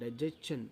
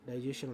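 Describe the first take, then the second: First: The word ends with a 'chun' sound. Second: The word ends with a 'shun' sound. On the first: The speaker calls it right. "కానీ అది యాక్చువల్లీ" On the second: The speaker calls it wrong. "డైజెషన్ అంటుంటాము"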